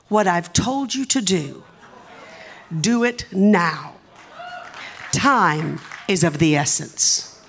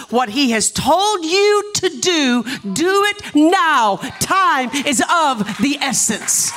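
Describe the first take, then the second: First: Solemn quoted message. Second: High, slow, ringing proclamation; forceful preaching. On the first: Retold or imitated. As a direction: deliver the message slowly and gravely. Quoting the prophetic text slowly. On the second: Real, not acted. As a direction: proclaim each phrase to the congregation. Preaches the same message to church.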